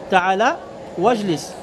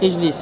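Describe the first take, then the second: First: The opening vowel is dropped and linked to wa. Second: The word starts with an audible glottal stop vowel. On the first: The word comes in the middle of the utterance. "Tu ne le prononces pas" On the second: The word begins the utterance. "Ici tu dis Ijlis et prononce Hamza"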